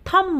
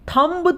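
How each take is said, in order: First: The final b sound is silent. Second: The final b sound is pronounced. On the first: The speaker calls it right. "थम बोलते हैं" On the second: The speaker calls it wrong. "हम थंब तो नहीं बोलते ना"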